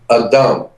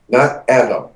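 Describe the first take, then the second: First: It is said with Hebrew vowels and sounds. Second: It is said like the English name. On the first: It is the Hebrew word for humankind. The speaker calls it right. "The word is A-D-M in Hebrew" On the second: It is a personal name. The speaker calls it wrong. "We added an A and it becomes a nice Jewish name"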